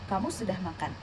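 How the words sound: It is said with statement intonation. The speaker states that the listener has eaten. "Ini adalah kalimat pernyataan"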